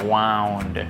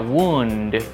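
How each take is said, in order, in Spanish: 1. La vocal suena como 'ow'. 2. La vocal suena como 'oo'. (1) "como el pasado del verbo enrollar" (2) "como sustantivo, se pronuncia wound con U"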